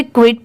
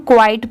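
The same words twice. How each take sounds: First: "क्विट" with a short i, as in quit; mispronounced quite. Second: "क्वाइट" with a long eye vowel; correct quite pronunciation. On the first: Teacher quoting learners' mistaken "क्विट", short-i pronunciation. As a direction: say "क्विट" as one short kwit, the common mistake. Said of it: "but वो wrong होता है". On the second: Teacher correcting learners to "क्वाइट", with an ai vowel. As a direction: say "क्वाइट" as kwite, with the ai glide. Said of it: "इसे हम क्वाइट पढ़ेंगे". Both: Shown as a demonstration.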